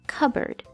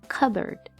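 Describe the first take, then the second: First: The p sound is almost silent. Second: The same.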